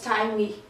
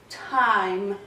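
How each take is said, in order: First: An extra vowel sound is added at the end. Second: The word ends on the m sound. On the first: The speaker calls it wrong. "Não falamos time com o I no final" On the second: The speaker calls it right. "O I, ele fica silencioso"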